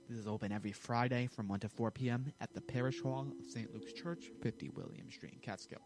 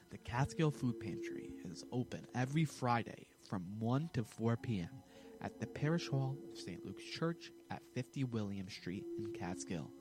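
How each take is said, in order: First: It is said fast. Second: It is said slowly.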